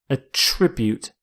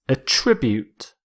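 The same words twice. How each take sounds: No difference in how they are said.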